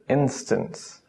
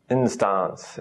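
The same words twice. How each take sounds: First: The second vowel is a reduced schwa. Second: The second vowel is a full vowel. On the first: The speaker calls it right. "This is more like a schwa. ... just instance" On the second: The speaker calls it wrong. "We don't say instance"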